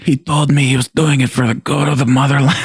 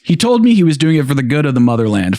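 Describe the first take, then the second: First: It is read in a put-on gangster voice. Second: It is read in a plain, normal voice. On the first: "I was sounding like the Godfather there" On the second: "Let's just read it in a normal voice"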